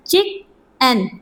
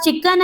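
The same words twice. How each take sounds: First: चिकन very slowly in two parts, चिक... अन; syllable by syllable. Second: Said in the usual way. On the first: Shown as a demonstration. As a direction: split चिकन with a clear pause mid-word. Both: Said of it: "इसके अंदर two syllable हैं".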